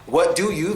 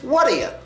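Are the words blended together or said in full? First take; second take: full; blended. First: Each word is said separately and clearly. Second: The words run together into one quick word.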